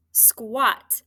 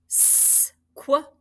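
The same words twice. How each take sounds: First: Said in the usual way. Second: "S-Q-A-T" as separate sounds: sss, kwuh, ah, t; sounded out. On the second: Shown as a demonstration. Teacher breaks squat into sounds for spelling, sounded out. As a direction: stretch the s, then tap out each sound of "S-Q-A-T".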